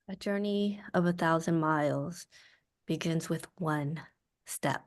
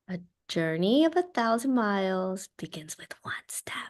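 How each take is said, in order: First: It sounds quietly angry and upset. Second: It sounds simple and gentle, as if to a toddler.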